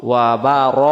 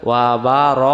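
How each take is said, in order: No difference in how they are said.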